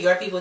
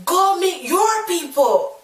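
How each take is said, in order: First: Said in the usual way. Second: Slow, much higher-pitched taunt; retold angry comeback. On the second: Child to bully after throwing ball, acted angry retort. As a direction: throw it back at the bully, drawn out.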